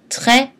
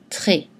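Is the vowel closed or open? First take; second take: open; closed. First: The vowel is an open e sound. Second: The vowel is a closed e sound. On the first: "on a tendance à prononcer avec la voyelle mi-ouverte est" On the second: "mais on peut prononcer aussi et"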